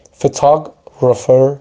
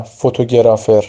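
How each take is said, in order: First: "فوتوگرافر" slow, English fe-TOG-rafer, stress on the second syllable; correct pronunciation. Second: "فوتوگرافر" Persian-style, every vowel full: fo-to-ge-ra-fer; Persian-style mispronunciation. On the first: Teacher models English word for Persian learners, careful correct pronunciation. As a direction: say "فوتوگرافر" the English way, drawn out as fe-TAA-grafer. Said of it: "نه فوتوگرافر". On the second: Teacher shows learners what to avoid, Persian-style pronunciation. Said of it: "فارسی تلفظش نکنیم". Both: Shown as a demonstration.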